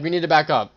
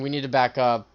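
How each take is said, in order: First: It is said louder with an urgent push. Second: It is said calmly at normal loudness. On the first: The team must retreat right now. The speaker calls it right. "You like raise your voice a little bit" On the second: The call may not get through to the team. The speaker calls it wrong. "Like just saying"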